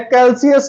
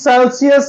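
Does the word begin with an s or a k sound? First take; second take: k; s. First: The word begins with a k sound. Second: The word begins with an s sound. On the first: The speaker calls it wrong. "कैल्सियस नहीं है" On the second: The speaker calls it right. "सेल्सियस है"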